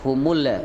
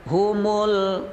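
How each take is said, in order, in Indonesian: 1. Huruf L dilepas dengan gema yang memantul. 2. Huruf L ditahan halus tanpa pantulan sama sekali. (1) "kalau dibaca kolkolah atau dipantulkan humul humul itu salah" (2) "Yang benar adalah humul muf. Jadi tidak ada pantulan pada huruf lam"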